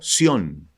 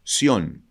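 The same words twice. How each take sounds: First: The name is said with Spanish pronunciation. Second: The name is said with Spanish pronunciation.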